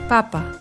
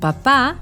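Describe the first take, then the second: First: The stress is on the first syllable. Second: The stress is on the second syllable. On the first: "El acento está aquí" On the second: "Esta palabra lleva tilde en la segunda sílaba"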